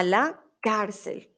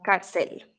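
First: Slow "cárcel" with stress on CAR; "cárcel" drawn out, first syllable stressed; correct first-syllable stress. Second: Slow "cárcel" wrongly stressed as car-CEL; wrong stress on final syllable. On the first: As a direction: model "cárcel" slowly as CAR-cel. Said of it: "la tilde va en la A". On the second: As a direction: show the mistake, "cárcel" with stress on the end. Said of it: "no cárcel". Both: Shown as a demonstration.

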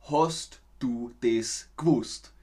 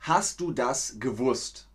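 First: "Hast du das gewusst" with Austrian vowels, slow; slow, broad Austrian pronunciation; Austrian accent. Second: Said in the usual way. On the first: Shown as a demonstration. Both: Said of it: "wird dann ausgesprochen".

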